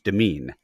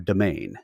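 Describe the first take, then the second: First: The word ends with a 'mean' sound. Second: The word ends with a 'main' sound. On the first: "with the English accent, it's demean" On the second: "without the English accent, it's domain"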